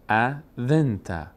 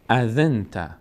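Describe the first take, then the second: First: "اذنت" slowly split, gap after the first syllable. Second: "اذنت" run together as a-dhin-ta; syllables joined. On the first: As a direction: sound out "اذنت" in parts, a, dhin-ta. Teacher spells out syllable by syllable. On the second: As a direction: blend "اذنت" into one word. Teacher joins the syllables. («اذنت» سرهم و پیوسته) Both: Shown as a demonstration.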